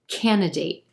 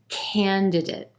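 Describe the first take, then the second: First: The first d sound is left out. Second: Both d sounds are clearly pronounced.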